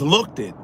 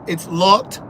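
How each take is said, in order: First: "looked it" in two syllables, look-tid; imitating "looked it" with a tacked-on second beat; mispronounced looked. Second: "looked" as one beat, ending in a t sound; teacherly "looked", no extra vowel after it; one-syllable looked. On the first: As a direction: add an extra syllable to "looked it". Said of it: "He also says". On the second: Shown as a demonstration. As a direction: correct them with a single-syllable "looked". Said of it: "Looked is one syllable".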